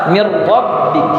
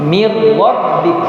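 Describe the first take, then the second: Both takes have the same delivery.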